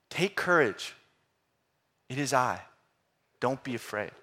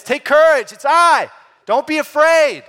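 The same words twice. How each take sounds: First: Said in the usual way. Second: Much higher and louder shout; shouting across a stormy sea to the boat; yelled over wind. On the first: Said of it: "to yell it, right". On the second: Shown as a demonstration. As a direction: call it out over the roaring waves. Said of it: "He probably would have had to, to yell it".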